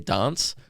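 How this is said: It is said in a rather British way.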